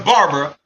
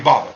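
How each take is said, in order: First: The name is said in full, three syllables. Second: The name is shortened to two syllables. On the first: This is the name as it is written. "Even though it's Barbara" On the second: This is how people actually say it. "but we just say Baba"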